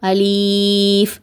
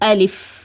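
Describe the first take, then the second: First: The second vowel is stretched long. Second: The second vowel is short. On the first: The speaker calls it wrong. "லீன்னு நீட்டி ஓதுவாங்க" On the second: The speaker calls it right. "இந்த மாதிரி தான் உச்சரிக்கணும்"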